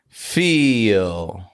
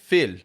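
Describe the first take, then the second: First: The vowel is long, full and clear. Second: The vowel is short and not fully clear. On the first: The speaker calls it right. "get clear vowel sounds" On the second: The speaker calls it wrong. "Not just feel"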